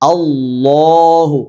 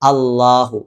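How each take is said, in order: First: The word is said with a heavy, full sound. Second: The word is said with a light, thin sound. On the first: The speaker calls it right. "ഘനപ്പിച്ച ശബ്ദത്തോടു കൂടി" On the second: The speaker calls it wrong. "അല്ലാഹു ഇങ്ങനെയല്ല"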